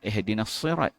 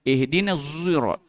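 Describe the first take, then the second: First: The word starts with a sharp s sound. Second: The word starts with a rounded z sound. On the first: "Dia tak baca dengan Sad" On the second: "Ismam zai z, tapi muncung"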